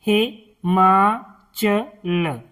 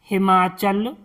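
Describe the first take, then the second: First: "हिमाचल" very slow, as "हि, मा, च, ल"; syllable by syllable. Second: Said in the usual way. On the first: Shown as a demonstration. Teacher teaching word reading, slowly broken "हिमाचल". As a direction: sound out "हिमाचल" with pauses. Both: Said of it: "इनका उच्चारण करना सिखाएंगे".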